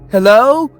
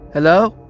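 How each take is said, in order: First: It is said louder. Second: It is said at normal, quieter volume.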